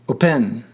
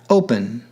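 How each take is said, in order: First: The stress is on the second syllable. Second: The stress is on the first syllable. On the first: The speaker calls it wrong. "Otherwise, ... open would be pronounced" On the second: The speaker calls it right. "the stress is on the first syllable"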